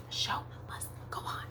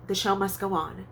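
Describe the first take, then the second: First: Hushed stage whisper; all breath, no voice. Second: Said in the usual way. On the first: Pretend. Whispered echo of same phrase.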